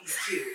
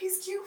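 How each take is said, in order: First: It sounds admiring and flirtatious. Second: It sounds warm and supportive. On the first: The speaker seems to desire the friend's partner. The speaker calls it wrong. "There's that, the bitch that wants to get punched" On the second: The speaker is happy for the couple. The speaker calls it right. "oh, y'all look so cute together"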